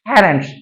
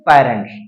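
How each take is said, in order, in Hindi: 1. पहली 'p' में हवा का तेज़ झोंका है। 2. पहली 'p' में हवा का कोई झोंका नहीं है। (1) "क्लियरिटी प्रोनाउंसिएशन" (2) "ना कि पेरेंट्स"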